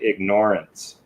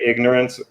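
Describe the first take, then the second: First: It is said with the word ignore inside. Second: It is said the usual way, like ignor-ance. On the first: It means choosing to ignore something. "you can pronounce it ignorance" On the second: It means lacking knowledge. "you can say ignorance"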